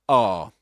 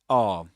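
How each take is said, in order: The two takes are said the same way.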